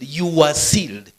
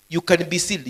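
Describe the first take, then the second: First: "were" held and pressed, slow and loud; stress on were. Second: Said in the usual way. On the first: Shown as a demonstration. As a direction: lean hard on "were" in "you were sealed". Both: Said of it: "aorist tense, closer to the English past tense".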